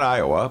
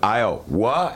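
First: It is said as a plain neutral name. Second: It is said with a disbelieving, exasperated tone. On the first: It simply names the state. "Not Iowa" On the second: It expresses disbelief at what happened. "but Iowa, as in WTF"

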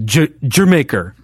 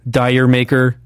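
First: The first word sounds like 'jer', like Jamaica. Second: The first word sounds like 'dyer', as spelled. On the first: The speaker calls it right. "I think is how you're supposed to say it" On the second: The speaker calls it wrong. "that people don't pronounce right"

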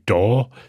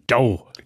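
First: The vowel is a single pure sound. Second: The vowel glides between two sounds. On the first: The speaker calls it wrong. "ich sage auch nicht da" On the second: The speaker calls it right. "sondern dau"

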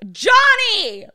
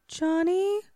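First: The name is yelled at full volume. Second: The name is called softly and timidly. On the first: She wants to get his attention. The speaker calls it right. "use your voice. Like, get on your voice. Johnny! Like, yell it" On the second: She is afraid of being heard. The speaker calls it wrong. "Kind of like you trying to like hail a waitress in a restaurant like far too quietly"

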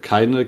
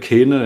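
First: The word is said in standard German. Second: The word is said in Saxon dialect. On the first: "du sagst keine" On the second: "man adaptiert es vielleicht so ein ganz kleines bisschen"

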